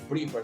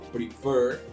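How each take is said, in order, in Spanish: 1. El acento cae en la primera sílaba. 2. El acento cae en la segunda sílaba. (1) "no prefer" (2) "sino prefer"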